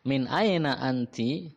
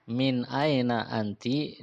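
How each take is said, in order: First: Slow question with a long "aina"; slow model question. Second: Slow repeat, "aina" drawn out with a rise. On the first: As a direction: stretch "aina" for the students. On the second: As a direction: say it again slowly. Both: Shown as a demonstration.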